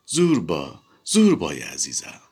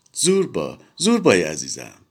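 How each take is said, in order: First: Coquettish. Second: Begging, pleading. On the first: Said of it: "با یک دنیا ناز و غمزه". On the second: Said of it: "التماس کنان گفت". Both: A narrator's reading.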